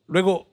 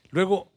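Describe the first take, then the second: No difference in how they are said.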